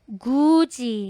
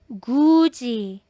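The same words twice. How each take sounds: No difference in how they are said.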